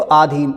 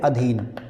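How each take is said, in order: First: The first vowel is long. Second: The first vowel is short. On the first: The speaker calls it wrong. "कुछ लोग लेते हैं इसको आधीन, जो कि गलत है" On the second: The speaker calls it right. "सही है अधीन"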